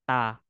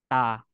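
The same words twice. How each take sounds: The two takes are said the same way.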